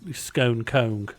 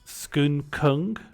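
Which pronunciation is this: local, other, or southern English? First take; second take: southern English; local. First: Said with a southern English pronunciation. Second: Said with the local pronunciation of the town. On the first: "viewers from the south of England would be saying" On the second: "you'd be saying"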